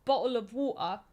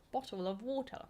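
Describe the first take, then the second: First: Bottle of water in a clipped British accent; first British take of bottle of water; British accent, one way. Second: Bottle of water in British accent, rising on water; second British take of bottle of water; British accent, another way. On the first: Viewer asks for it, says it in British accent. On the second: Viewer asks, tries another British version. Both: Shown as a demonstration. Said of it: "there's different ways".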